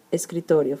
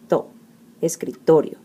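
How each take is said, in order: First: Said in the usual way. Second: "to" alone, then "escritorio" with TO hit hard; stress on second-to-last syllable. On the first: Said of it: "let's take a look at the word". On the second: Shown as a demonstration. Teacher showing the strong syllable in escritorio, stress on TO. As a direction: punch the TO in "escritorio" after isolating "to". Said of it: "the strong syllable is the second to last".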